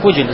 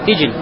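First: The first vowel is a rounded u sound. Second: The first vowel is an unrounded i sound. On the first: The speaker calls it right. "Правильно говорит так" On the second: The speaker calls it wrong. "Здесь говорят с касрин под фе"

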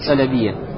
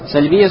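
First: A vowel sound comes between the L and B. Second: The L is followed directly by the B. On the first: The speaker calls it wrong. "Неправильно читать сальбия" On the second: The speaker calls it right. "с сукуном над лям"

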